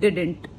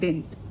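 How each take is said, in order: First: It is said with two full syllables. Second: It is said as one short syllable. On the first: The speaker calls it wrong. "डिडेंट कोई word नहीं है" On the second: The speaker calls it right. "उसको बोलते हैं डिंट"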